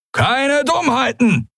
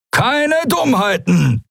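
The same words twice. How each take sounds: First: High, slow threatening pirate. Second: High, drawn-out pirate warning; threatening. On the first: Halbhorn aiming his weapon at captives, threatening. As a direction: draw out a high-pitched warning. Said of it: "drohte er". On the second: Halbhorn repeating his warning to captives, threatening. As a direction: warn them slowly in a raised voice. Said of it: "wiederholte Halbhorn". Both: A narrator's reading.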